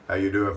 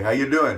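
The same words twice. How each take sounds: First: It is said in the speaker's usual accent. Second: It is said in an attempted Canadian accent.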